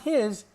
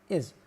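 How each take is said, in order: First: The word begins with a clear h sound. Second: The word begins without any h sound. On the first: The speaker calls it wrong. "Not his" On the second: The speaker calls it right.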